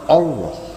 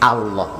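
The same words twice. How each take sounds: First: The first vowel is a rounded 'o' sound. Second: The first vowel is an open 'a' sound. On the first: The speaker calls it wrong. "jangan O" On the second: The speaker calls it right.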